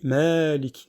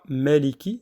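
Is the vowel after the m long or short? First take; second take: long; short. First: The vowel after the m is drawn out longer. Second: The vowel after the m is short and clipped. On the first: The speaker calls it right. "on va étendre un petit peu le son de- du, du mime" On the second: The speaker calls it wrong. "On ne dit pas Maliki directement"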